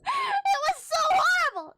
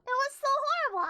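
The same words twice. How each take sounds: First: High, loud wail of disgust; anguished cry. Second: Said in the usual way. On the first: Real, not acted. Retelling shocking comic, crying out.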